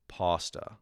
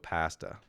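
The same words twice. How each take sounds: First: It is said with an American pronunciation. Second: It is said with a Canadian pronunciation. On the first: "Americans, ironically, sound more pretentious because they go like this" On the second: "But Canadians go"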